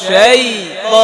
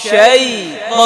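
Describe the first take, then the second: The two takes are said the same way.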